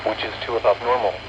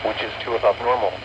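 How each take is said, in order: Both takes have the same delivery.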